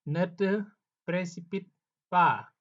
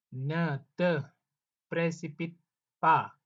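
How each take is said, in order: Both takes have the same delivery.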